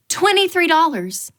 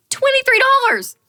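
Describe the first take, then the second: First: A raised, disbelieving read of the price; stunned. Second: Much higher and louder, incredulous; outraged disbelief. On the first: Reading an outrageous guacamole price, raised and stunned. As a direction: say it like you can't believe the menu. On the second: Repeating the guacamole price, high, loud and outraged. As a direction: nearly shriek the price back. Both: Retold or imitated.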